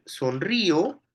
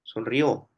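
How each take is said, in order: First: Sonrío with the stress on the í; sonrío stressed on the middle í. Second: Sonrió with the stress on the last ó; sonrió stressed at the end, rising; stress on the final ó. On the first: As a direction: lean on the í in sonrío. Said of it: "tú puedes decir sonrío". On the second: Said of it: "o puedes decir sonrió". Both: Shown as a demonstration.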